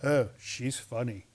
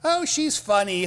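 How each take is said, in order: First: It is said in a wary, uneasy way. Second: It is said in an amused, laughing way. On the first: She is strange. "They go" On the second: She is humorous. "They don't go"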